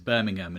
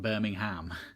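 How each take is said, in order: First: It is said the way locals say it. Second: It is said the way Americans say it. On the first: The speaker calls it right. "it is Birmingham" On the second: The speaker calls it wrong. "it is not Birmingham"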